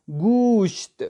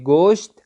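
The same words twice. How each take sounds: First: گوشت said with a u, gusht, pitched high; Persian pronunciation. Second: گوشت with a plain Urdu o, goshT; Urdu pronunciation. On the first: Teacher shows students the Persian گوشت with a u, gusht. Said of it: "اور فارسی میں کیا پڑھیں گے". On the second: Teacher shows students the Urdu گوشت with an o sound. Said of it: "Urdu میں ہم پڑھیں گے گوشت". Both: Shown as a demonstration.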